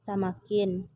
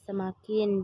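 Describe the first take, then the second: First: The first vowel sounds like 'ah'. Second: The first vowel sounds like 'uh'.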